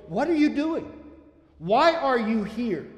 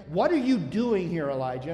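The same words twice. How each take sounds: First: With this flavor. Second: Said in the usual way. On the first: Shown as a demonstration. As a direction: press him with the question, the second part slowed. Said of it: "this flavor". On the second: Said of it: "And I read into that, this flavor".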